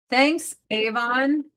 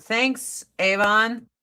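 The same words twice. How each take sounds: First: Slow, drawn-out sarcastic "Thanks, Avon"; mock gratitude to the mascara brand. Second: Said in the usual way. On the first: Real, not acted. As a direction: stretch "Thanks" out, dripping with sarcasm.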